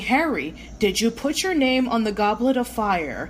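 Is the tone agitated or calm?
calm. The question is asked in a calm, gentle tone. This is how the book describes the moment. The speaker calls it right. "Dumbledore approached Harry calmly"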